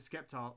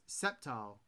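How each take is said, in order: First: The name begins with an sk sound. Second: The name begins with a plain s sound. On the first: "I always called it Skeptile" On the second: "It's pronounced Sceptile"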